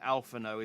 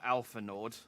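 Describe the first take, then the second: First: The name ends without a D sound. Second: The name ends with a D sound. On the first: The speaker calls it right. "the D in Alphano is silent" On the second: The speaker calls it wrong. "it's not Alpha Nord"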